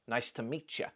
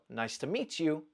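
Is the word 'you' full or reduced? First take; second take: reduced; full. First: The word 'you' is reduced to 'ya'. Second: The word 'you' is said in full. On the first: "ya is a weak form of you" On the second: "So nice to meet you becomes"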